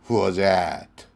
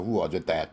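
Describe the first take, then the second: First: The last word begins with a vowel, like 'at'. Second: The last word begins with a clear 'th' sound. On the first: The speaker calls it right. "that를 원어민 방식대로 at라고 하면 됩니다" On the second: The speaker calls it wrong. "똑바로 고쳐서 that라고"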